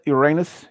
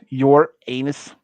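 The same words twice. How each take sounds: First: Said in the usual way. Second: "your anus" said slowly as two words; "your anus" stretched, with a long A; split pronunciation. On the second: Shown as a demonstration. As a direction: pull "your anus" apart, YOUR, then AY-nus. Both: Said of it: "the pronunciation of Uranus has a different".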